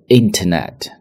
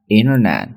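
First: The t after 'in' is clearly pronounced. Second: The t after 'in' is silent. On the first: The speaker calls it wrong. "不读为internet" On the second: The speaker calls it right. "在美式发音中inter 中间的t 不会发出来，而且呢er 在卷舌头"

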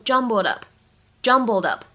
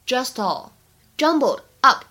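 First: The two words are linked together. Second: The two words are said separately.

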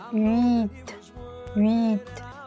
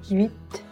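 First: The vowels are said as two separate sounds. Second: The sounds glide quickly into one syllable. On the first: The speaker calls it wrong. "不能发成分别的两个音，不能发成u it" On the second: The speaker calls it right. "而是要快速的过渡到作为主体的元音上，就是u it"

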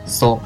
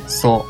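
The two takes are said the same way.

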